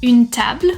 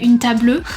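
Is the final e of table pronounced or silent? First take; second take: silent; pronounced. First: The final e is silent. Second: The final e is pronounced. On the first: The speaker calls it right. "We're not going to pronounce it" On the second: The speaker calls it wrong. "We're not going to say"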